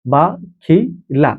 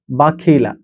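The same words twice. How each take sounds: First: বাখিলা stretched very slowly, each syllable held; drawn out slowly. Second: Said in the usual way. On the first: Shown as a demonstration. Teacher drawing out বাখিলা slowly for students to repeat. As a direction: spell out বাখিলা slowly for the class to follow. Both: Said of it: "teacher drilling the word".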